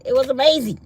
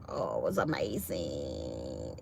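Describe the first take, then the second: First: Loud, higher-pitched burst of praise; emphatic rave. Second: Low, soft, drawn-out relish; savoring. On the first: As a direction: belt out AMAZING with excitement. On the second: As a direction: stretch AMAZING out in a low hush. Savoring the salad, said two ways. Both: Real, not acted.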